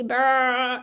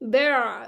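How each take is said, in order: First: The final sound is drawn out too long. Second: The final sound continues slightly, neither stopped nor long. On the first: The speaker calls it wrong. "इसमें ज्यादा नहीं चलेगी, बा ऐसे नहीं करना" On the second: The speaker calls it right. "मिडिल आवाज चल रही है, इसकी स्टॉप भी नहीं हुई, ज्यादा भी नहीं चली"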